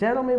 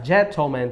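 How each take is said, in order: First: It is said with an American accent. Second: It is said with a British accent.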